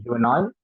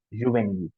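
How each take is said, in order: First: Juvenile ending like Nile; English pronunciation. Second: Juvénile ending in EEL; juvénile in French, é as AY; French pronunciation. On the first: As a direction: say Juvenile as JOO-veh-nile. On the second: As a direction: say juvénile as zhoo-vay-NEEL. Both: Shown as a demonstration. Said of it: "That's how the pronunciation is".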